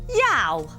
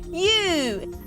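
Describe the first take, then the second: First: The vowel sounds like the one in cow. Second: The vowel sounds like the one in too. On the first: The speaker calls it wrong. "That doesn't sound right" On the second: The speaker calls it right. "It's you"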